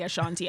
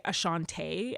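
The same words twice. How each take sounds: First: Ashanti ending in "tee", uh-SHAHN-tee; own correct pronunciation. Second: Ashanti ending in "tay", uh-shahn-TAY; mimicked mispronunciation. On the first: Retold or imitated. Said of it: "You just heard me say". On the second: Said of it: "people would always first off say".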